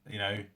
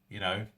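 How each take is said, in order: No difference in how they are said.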